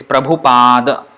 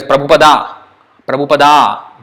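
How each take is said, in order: First: "Prabhupada" with an aspirated bh, the final a dropped; correct Prabhupada. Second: "Prabhupada" with a plain b and a full final a; wrong Prabhupada. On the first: Teacher giving students the correct form, clear. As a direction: breathe the bh, clip the end of "Prabhupada". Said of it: "It's not Prabhupada". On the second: Teacher showing students the common written error, mildly mocking. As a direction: stress the plain-b "Prabhupada" as a mistake. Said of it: "No, that's totally wrong". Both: Shown as a demonstration.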